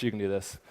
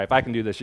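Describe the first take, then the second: First: You stressed, softer line; encouraging stress on you. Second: I stressed, falling; playful stress on I before you. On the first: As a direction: push the word you in you can do this. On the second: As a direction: lean on I in if I can do this. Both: Shown as a demonstration. Demonstrating pose, contrasting I and you.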